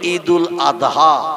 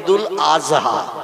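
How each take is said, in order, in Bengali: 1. মাঝের ব্যঞ্জনটি ড-এর মতো শোনায়। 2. মাঝের ব্যঞ্জনটি জ-এর মতো শোনায়। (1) "আমরা বলি ঈদুল আদহা" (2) "ওরা বলে ঈদুল আজহা। কি বলে? মানে জয় অক্ষর উচ্চারণের মতো আওয়াজ করে বলে।"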